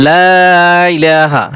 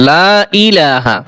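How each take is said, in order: Both takes have the same delivery.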